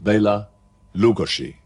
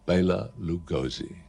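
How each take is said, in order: First: The name has its native, foreign pronunciation. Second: The name has a simpler English-style pronunciation. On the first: This is the original form of the name. "that's the correct way of pronouncing it" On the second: This is the form the public came to know. "he became immortalized under the name of"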